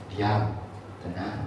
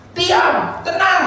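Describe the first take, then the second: First: Low, very soft command; quiet words, spaced by a pause; gentle hushing. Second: High, slow, drawn-out shout; mock scolding yell at running kids; yelling at children. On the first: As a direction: hush a small child calmly. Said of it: "Kan enggak, kan? Saudara bilang". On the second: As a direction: holler each word out. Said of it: "saudara bilangin nggak?". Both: Shown as a demonstration.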